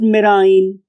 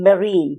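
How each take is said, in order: First: The last syllable rhymes with 'line'. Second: The last syllable rhymes with 'seen'. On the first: The speaker calls it wrong. "It is the word is not मेराइन" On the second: The speaker calls it right. "the word is marine"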